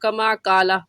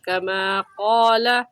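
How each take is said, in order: First: Both words begin with the same thin consonant. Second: The second word begins with a heavy, rounded consonant. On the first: The speaker calls it wrong. "दोनों को कमा काला ऐसे पढ़ जाते हैं" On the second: The speaker calls it right. "ये बारीक है कमा और ये मोटा है कौला"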